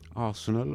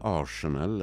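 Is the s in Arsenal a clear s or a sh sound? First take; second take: clear s; sh sound. First: The s is pronounced as a clear s. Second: The rs is merged into a sh sound. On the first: The speaker calls it right. "tydliga S ska det höras" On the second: The speaker calls it wrong. "Som svenskar uttalar"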